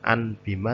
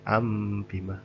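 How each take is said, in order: First: The nasal before bima is pronounced as n. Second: The nasal before bima is pronounced as m. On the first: The speaker calls it wrong. "bukan an bima" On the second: The speaker calls it right. "tapi am bima"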